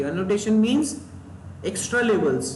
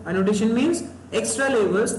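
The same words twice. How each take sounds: First: Said in the usual way. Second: Slow, deliberate repeat of the definition. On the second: Shown as a demonstration. Teacher repeating the definition to students, very slowly. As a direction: spell it out word by word so it sticks.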